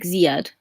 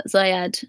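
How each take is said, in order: First: "Ziad" with the first syllable as "zee", ZEE-ad; "Ziad" said zee-ad, not zai-ad; corrected pronunciation. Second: "Zayad" with the first syllable like "eye", ZAI-ad; "Zayad" with an open "zai" opening; first pronunciation attempt. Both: Shown as a demonstration. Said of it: "you go down on the Z".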